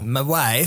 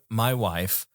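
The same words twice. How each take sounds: First: It is said in an imitated foreign accent. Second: It is said in a normal speaking voice.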